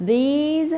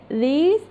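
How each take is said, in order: First: These with a long "ee" and voiced z, higher; plural "these". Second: These said short, as "this"; singular "this". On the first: Teacher contrasting plural with singular, these long and high with final z. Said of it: "جمع". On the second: Teacher contrasting singular with plural, these said short as "this". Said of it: "مفرد". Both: Shown as a demonstration.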